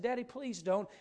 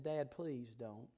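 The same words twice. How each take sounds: First: "Daddy, please don't" pitched up, lightly urgent; emphatic retold plea. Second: Put-on slow, low, softened child's plea; earnest retold plea. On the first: Boy holding his dad tight, "Daddy, please don't" as emphatic plea. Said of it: "every which way I knew to emphasize that phrase". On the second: Son begging his dad to stay, subdued earnest plea. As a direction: quietly imitate an earnest begging kid. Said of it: "how earnest I was".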